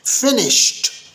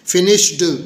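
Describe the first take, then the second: First: The word ends with a t sound. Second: The word ends with a d sound. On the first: The speaker calls it right. "देखा आखिरी sound क्या हुई, ट type की" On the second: The speaker calls it wrong. "आपने डी की आवाज़ निकालने की कोशिश की और ये गलत तलफ़ुज़ हो गया"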